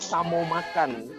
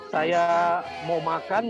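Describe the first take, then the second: First: The first word is cut to one syllable. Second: The first word is said in full, two syllables. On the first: "tingkat diambil depannya aja" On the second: "Kayak kita bilang"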